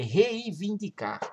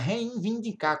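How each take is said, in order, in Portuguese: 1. A primeira sílaba não tem som de n nasal. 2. A primeira sílaba tem um som de n nasal extra. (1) "é reivindicar" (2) "Fica reivindicar, como se a pessoa tivesse fanha"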